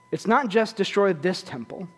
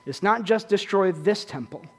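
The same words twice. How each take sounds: First: "not" leaned on and held long; stress on not. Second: "just" given the weight and the fall; stress on just. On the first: Preacher repeats the line, pressing on "not". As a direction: lean on "not" and hold it. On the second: Preacher repeats the line, pressing on "just". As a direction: land the phrase on "just". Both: Shown as a demonstration.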